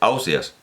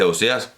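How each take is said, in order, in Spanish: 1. Se pronuncia como la gente lo dice en Gandía. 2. Se pronuncia de la manera valenciana general. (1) "en Gandía se dice Ausias" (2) "en las tierras valencianas se dice Ausias"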